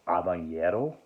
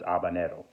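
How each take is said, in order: First: The n is said as a ny sound. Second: The n is said as a plain n. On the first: The speaker calls it wrong. "or use the ñ. They call it habanero. That's not correct" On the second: The speaker calls it right. "but it's habanero"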